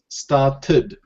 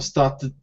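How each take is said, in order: First: The ending forms its own extra syllable. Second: The ending is added without an extra syllable. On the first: The speaker calls it right. "it's a syllable and then D" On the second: The speaker calls it wrong. "We can't say started"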